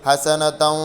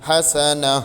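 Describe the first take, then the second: First: The word ends with a t sound and vowel. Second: The word ends in a silent h sound. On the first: The reader continues into the next word. "കൂട്ടി ഒതി പോകണം" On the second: The reader stops on this word. "ഹാ ഇന് സുക്കൂൻ ചെയ്തുകൊണ്ട് നിർത്തണം"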